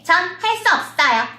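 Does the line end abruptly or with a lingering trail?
abrupt. The line stops abruptly with no lingering ending. The speaker calls it wrong. "그러면 이거는 표현이 안 되는 거예요"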